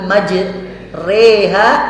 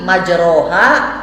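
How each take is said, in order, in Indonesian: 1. Vokal setelah r condong ke i. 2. Vokal setelah r adalah a terbuka biasa. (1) "rada miring gitu eta eta teh namanya imalah"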